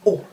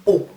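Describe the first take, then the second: Both takes have the same delivery.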